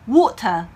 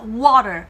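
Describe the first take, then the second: First: It has a clear T and no final R. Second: It has a soft T and a final R. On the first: "영국인들은 이렇게 얘기해요" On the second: "미국식으로 T를 부드럽게"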